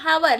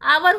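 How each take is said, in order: First: The word begins with an audible h sound. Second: The word begins directly with a vowel sound. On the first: The speaker calls it wrong. "हम लोग बोलते हैं हावर, लेकिन हावर नहीं होता" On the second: The speaker calls it right. "वह आवर होता है। एच जो होता है वह साइलेंट रहता है"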